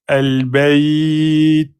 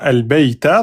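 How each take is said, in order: First: The word ends on t with a breath. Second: The word ends on a short vowel after t. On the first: The reading stops on this word. "on doit lâcher un petit souffle" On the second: The reading continues without stopping. "on continue"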